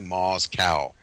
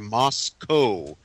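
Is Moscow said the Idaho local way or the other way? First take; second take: other way; Idaho local. First: It is said the other, non-local way. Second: It is said the local Idaho way. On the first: It names the city in Russia. "as opposed to" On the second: It names the town in Idaho. "as they say it here"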